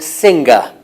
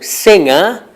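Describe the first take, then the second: First: It is said with a Northern English pronunciation. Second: It is said in the standard way. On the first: "They say sing and singer. This is not standard, but it's not wrong. It's a regional pronunciation" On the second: "some people from Northern England don't say sing or singer"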